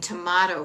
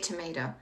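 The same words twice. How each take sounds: First: The word is said with a Boston accent. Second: The word is said with a neutral American accent. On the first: This is how it was said while growing up. "I said bathroom and tomato for the longest time" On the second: This is how it is said now. "Now I say tomato"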